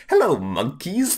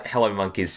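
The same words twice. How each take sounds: First: Condescending Frieza. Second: Said in the usual way. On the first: Retold or imitated. Imitating Frieza greeting the Saiyans, condescending. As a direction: look down on them as you greet them. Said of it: "so condescending and cunty". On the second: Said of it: "just a great line".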